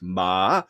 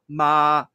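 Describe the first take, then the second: First: The pitch starts high, dips low, then rises. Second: The pitch stays high and level throughout. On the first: It turns a statement into a question. "It starts high, goes low, goes back up high" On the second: It means mother. "the first Chinese tone, ... which is all kind of an upper uh, tone"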